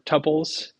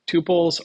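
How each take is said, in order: First: The first vowel is a short U sound. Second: The first vowel is a long U sound. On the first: "or a short U" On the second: "with a long U"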